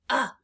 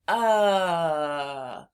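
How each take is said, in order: First: The vowel is cut off short. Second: The vowel is stretched out long. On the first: "I'm saying it in a short way" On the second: "we can stretch this sound"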